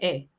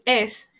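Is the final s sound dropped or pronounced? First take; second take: dropped; pronounced. First: The final s sound is dropped. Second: The final s sound is pronounced. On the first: "el dominicano dice e" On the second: "en lugar de decir es"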